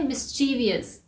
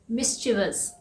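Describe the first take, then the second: First: "मिस्चीवियस" as mis-CHEE-vee-us; common mispronunciation. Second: "मिस्चीवियस" as MIS-chi-vus, three beats; no "ee-us" ending in "मिस्चीवियस", MIS-chi-vus; correct pronunciation. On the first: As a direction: add an extra "ee" beat to "मिस्चीवियस". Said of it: "इसे हम बोलते हैं". ("मिस्चीवियस" का आम गलत उच्चारण, मिस-ची-वि-यस) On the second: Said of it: "इसका सही प्रोनाउंसिएशन है". ("मिस्चीवियस" का सही उच्चारण, मिस-चि-वस) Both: Shown as a demonstration.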